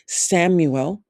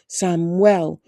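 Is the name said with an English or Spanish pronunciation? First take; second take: English; Spanish. First: The name is said with an English pronunciation. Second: The name is said with a Spanish pronunciation. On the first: This is how the speaker usually said it. "which I always said most of the time in English" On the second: This is how his sisters said it. "when his sisters spoke to him, they always said Samuel"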